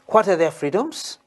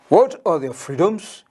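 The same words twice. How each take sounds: First: It is said in a smaller, quieter voice. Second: It is said in a bigger, louder voice. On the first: The speaker calls it wrong. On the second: The speaker calls it right.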